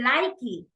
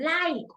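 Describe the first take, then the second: First: An extra vowel sound follows the final k. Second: The word ends cleanly on the k sound. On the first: The speaker calls it wrong. "you were saying likey" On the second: The speaker calls it right. "that pronunciation, like, all the time"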